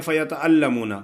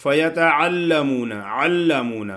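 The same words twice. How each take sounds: First: فیتعلمون with the ع dropped to a plain glottal hamza; ain said as hamza. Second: فیتعلمون with a clear throat ع, slow; ain from its articulation point. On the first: Teacher imitating a common mistake, ع read as hamza. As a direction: say فیتعلمون as فیتألمون, hamza instead of ع. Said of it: "کچھ لوگ ایسے ہوتے ہیں کہ وہ پڑھتے ہیں". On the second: Teacher models فیتعلمون with a proper ع. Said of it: "عین کو آپ نے مخرج سے ادا کرنا ہے". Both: Shown as a demonstration.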